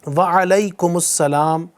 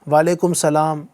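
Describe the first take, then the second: First: An 'us' sound links 'alaikum' to 'salam'. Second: 'Alaikum' is followed by 'salam' with no 'us'. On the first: The speaker calls it right. "ये इस अंदाज से जवाब देना है" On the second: The speaker calls it wrong. "बाज़ लोग ... इस तरह भी बोल रहे होते हैं"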